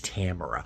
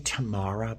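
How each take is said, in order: First: The name has a plain non-Boston vowel. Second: The name has a broad Boston 'ah' vowel. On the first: The speaker calls it right. "but it's Tamara" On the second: The speaker calls it wrong. "I always say Tamara"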